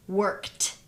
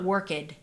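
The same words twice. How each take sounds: First: "worked" ending in a crisp t sound, one syllable; correct worked. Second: Put-on "worked" said as wər-kid with an added syllable; wrong extra syllable. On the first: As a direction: say "worked" as wərkt, no added vowel. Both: Shown as a demonstration. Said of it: "it's not worked".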